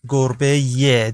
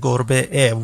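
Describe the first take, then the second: First: A y sound links the two vowels. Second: The two vowels meet with no y sound. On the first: The speaker calls it right. "you add a mediator here, which is ye" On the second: The speaker calls it wrong. "Don't say گربه ا"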